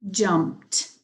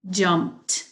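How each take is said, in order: Both takes have the same delivery.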